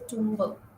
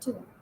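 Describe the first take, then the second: First: A b sound is pronounced at the end. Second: The word ends without any b sound. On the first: The speaker calls it wrong. "You don't say tumber" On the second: The speaker calls it right. "You say tomb"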